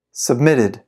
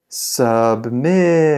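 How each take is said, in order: First: Said in the usual way. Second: Very slow, every syllable drawn out; slow-motion model for repeating; slow pronunciation. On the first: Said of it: "I'll read it fast". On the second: Shown as a demonstration. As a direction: stretch the word right out for learners. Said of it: "then I'll read it slow".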